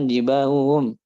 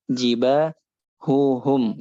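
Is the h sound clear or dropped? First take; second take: dropped; clear. First: The h sounds are swallowed and dropped. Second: The h sounds are pronounced clearly. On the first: The speaker calls it wrong. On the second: The speaker calls it right.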